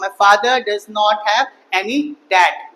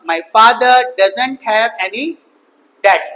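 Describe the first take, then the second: First: 'Does not' is said as two full words. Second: 'Does not' is shortened to one word. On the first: "अगर मुझे पूरा बोलना पड़े" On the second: "shortcut में कैसे बोलूंगा?"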